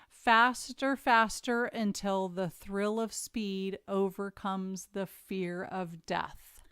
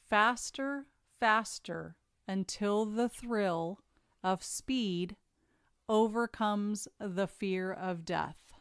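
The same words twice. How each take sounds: First: It is read at a normal pace. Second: It is read a little more slowly.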